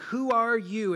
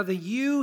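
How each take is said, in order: First: "Who are you?" with "you" pushed up; stress on you. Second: "you" lifted high and hit hard; emphatic you. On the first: Preacher showing the Greek emphasis on "you". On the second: Preacher stressing "you" in the leaders' question. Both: Shown as a demonstration. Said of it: "here is emphatic in biblical Greek".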